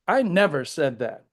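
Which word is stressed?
never. The stress is on the word never.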